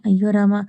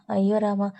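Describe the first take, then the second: First: Louder, exasperated oh dear; loud exclamation. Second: Said in the usual way. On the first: Acted. Tripada answering Krish's threat, loudly exasperated. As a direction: call out in mock dismay.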